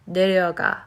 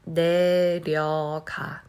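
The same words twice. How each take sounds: First: The word is said quickly and smoothly. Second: The word is said slowly and carefully. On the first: "let me say fast" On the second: "to pronounce this slowly"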